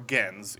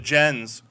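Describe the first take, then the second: First: The word is pronounced the Latin way. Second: The word is pronounced the English way.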